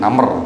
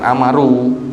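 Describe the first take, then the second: First: The name is said with one syllable. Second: The name is said with three syllables. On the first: The speaker calls it right. "alifnya itu dihilangkan" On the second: The speaker calls it wrong. "bukan Amaru"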